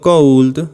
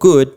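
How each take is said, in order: First: An L sound is heard in the word. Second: No L sound is heard in the word. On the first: The speaker calls it wrong. "No digo cold" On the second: The speaker calls it right. "sino digo could"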